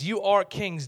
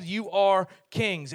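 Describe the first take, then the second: First: "are" leaned on, falling end; stress on are. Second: "are" hit, said slowly with a falling end; slow down and lean on "are"; slow stress on are. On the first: Pastor telling the dads they are kings, stressing "are". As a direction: press the word "are" in "You are kings". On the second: Pastor repeating to the men, slower, stressing "are". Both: Shown as a demonstration. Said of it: "stress on are".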